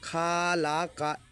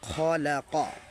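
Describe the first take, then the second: First: The first vowel is drawn out long. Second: The first vowel is kept short. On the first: The speaker calls it wrong. "খটাকে খা পড়তো, কাপটাকে কা পড়তো, তার মানে খালাকা খালাকা ... এইভাবে পাঠ করতো সবাই" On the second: The speaker calls it right. "কাপের উচ্চারণে কোনো বাড়া হবে না ... স্পষ্ট করে আমরা বলে দেব"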